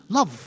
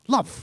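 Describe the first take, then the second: No difference in how they are said.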